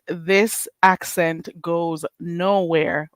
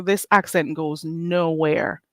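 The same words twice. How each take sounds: First: Slow emphatic. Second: Slow firm. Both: Shown as a demonstration.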